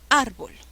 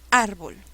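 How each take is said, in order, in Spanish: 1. El acento está en la primera sílaba. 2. El acento está en la primera sílaba.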